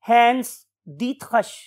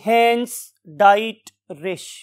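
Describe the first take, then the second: First: The surname is pronounced the German way. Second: The surname is sounded out following its English spelling. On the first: It is how the name is really pronounced. "जब हमने इसको German language में प्रोनाउंस करना सीखा" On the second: It helps to remember the spelling. "स्पेलिंग याद करने के रेफरेंस से"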